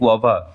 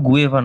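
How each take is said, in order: First: The vowel after 'gu' sounds like 'ah'. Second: The vowel after 'gu' sounds like 'eh'. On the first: The speaker calls it right. "এটা হচ্ছে গুয়াভা" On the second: The speaker calls it wrong. "এটা কিন্তু গুয়েভা নয় উচ্চারণ"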